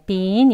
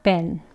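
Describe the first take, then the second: First: The vowel is held long and full. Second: The vowel is short and reduced. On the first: "been 입꼬리 당기셔서요" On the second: "길게 하지 않습니다. been, been 짧게"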